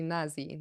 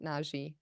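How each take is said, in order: First: The middle consonant is a z sound. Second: The middle consonant is a j sound. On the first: The speaker calls it right. "I think it's actually Nazi" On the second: The speaker calls it wrong. "not Naji"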